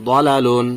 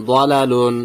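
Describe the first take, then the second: No difference in how they are said.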